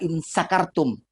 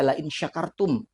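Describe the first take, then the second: First: The verb begins with an 's' sound. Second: The verb begins with a 'sh' sound. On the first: If you are drunk. The speaker calls it wrong. "sya kita baca sin" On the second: If you are grateful. The speaker calls it right. "Sungguhnya ketika kamu bersyukur"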